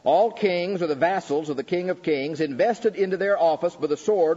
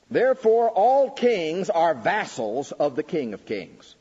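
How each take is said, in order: First: Raised preaching repeat, "All" stressed, a bit less intense; firm restatement. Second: Louder, higher and slow, "all" hit hard; proclaiming the quote. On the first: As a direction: restate the point firmly to the hall. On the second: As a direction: ring out "Therefore, all kings" like a decree. Proclaims quote, then restates. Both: Acted.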